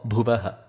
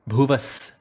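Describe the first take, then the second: First: The word ends with a ha syllable. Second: The word ends with an s sound. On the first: The speaker calls it wrong. "or Bhuvaha" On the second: The speaker calls it right.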